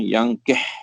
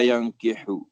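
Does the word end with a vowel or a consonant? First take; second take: consonant; vowel. First: The word ends on a bare h consonant. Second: The word ends with a short u vowel. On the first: "bi iskaniha, boleh juga dibaca dengan yankih, mati" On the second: "bi dhammil ha"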